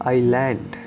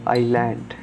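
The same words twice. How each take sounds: Both takes have the same delivery.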